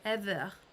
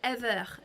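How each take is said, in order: First: It is said with a French accent. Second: The same.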